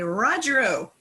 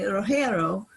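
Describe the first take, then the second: First: The name is said with an English pronunciation. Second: The name is said with a Spanish pronunciation. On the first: "most English-speaking people in the United States would say" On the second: "it has the Castilian Spanish pronunciation here"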